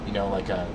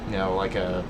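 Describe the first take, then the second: No difference in how they are said.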